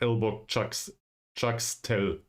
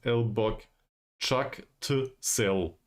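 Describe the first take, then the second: First: The S sound comes before the T sound. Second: The T sound comes before the S sound. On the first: The speaker calls it wrong. "I always pronounced it ... which is totally wrong" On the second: The speaker calls it right. "The way it is said uh, put here"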